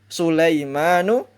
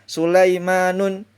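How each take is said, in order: First: The name ends on a vowel without n. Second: The name ends with an added n sound. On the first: The speaker calls it right. "Harus dibaca" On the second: The speaker calls it wrong. "Itu tidak boleh"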